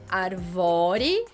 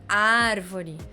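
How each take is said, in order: First: The stress is on a later syllable. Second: The stress is on the first syllable. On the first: The speaker calls it wrong. "Não é arvore" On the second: The speaker calls it right. "ar é a sílaba mais forte"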